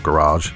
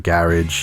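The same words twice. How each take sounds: First: The word is said the American way. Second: The word is said the British way.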